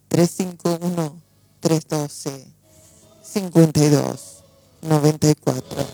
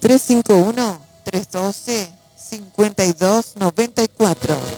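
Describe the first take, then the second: First: It is said more slowly. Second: It is said at normal speed.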